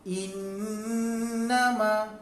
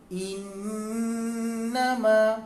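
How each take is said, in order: Both takes have the same delivery.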